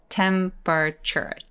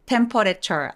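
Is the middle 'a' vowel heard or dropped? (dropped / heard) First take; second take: dropped; heard. First: The middle vowel is dropped, shortening the word. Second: Every vowel is pronounced, including the middle one. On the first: The speaker calls it right. "A를 날려서 소리 내볼게요" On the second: The speaker calls it wrong. "temperature 아니고"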